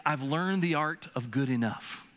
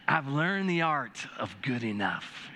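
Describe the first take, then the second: First: Said in the usual way. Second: Slow, savoring tone. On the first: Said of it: "What I say is". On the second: Shown as a demonstration. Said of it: "Doesn't that sound better?".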